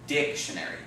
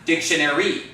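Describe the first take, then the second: First: The stress is on the first syllable. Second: The stress is on a later syllable. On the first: The speaker calls it right. "The first syllable, right?" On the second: The speaker calls it wrong. "It's not dictionary"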